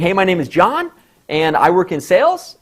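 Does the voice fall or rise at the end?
rise. The voice rises at the end of the sentence. The speaker sounds less confident. The speaker calls it wrong. "I just don't sound as confident"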